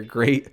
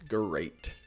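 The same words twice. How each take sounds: First: Said in the usual way. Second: A low, falling cartoon-tiger "great,"; mock Tony the Tiger "great,". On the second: Shown as a demonstration. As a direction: drag out "great," like a cereal-box tiger. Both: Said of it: "who am I, Tony the Tiger?".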